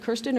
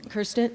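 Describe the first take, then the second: First: Kirsten said KEER-stən; alternative pronunciation. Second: Kirsten said KUR-stən; first pronunciation option. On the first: Moderator offering the other name option, Kirsten pronounced KEER-stən. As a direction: say "Kirsten" with an EER vowel, like "ear". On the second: Moderator checking a panelist's name, Kirsten pronounced KUR-stən. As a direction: say "Kirsten" with an ER vowel, like "curse". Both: Shown as a demonstration. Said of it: "is it Kirsten or Kirsten".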